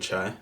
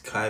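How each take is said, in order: First: The name begins with a ch sound. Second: The name begins with a k sound. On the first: The speaker calls it wrong. "I've been saying it wrong. I've been saying Chai" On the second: The speaker calls it right. "So it's Kai Benji"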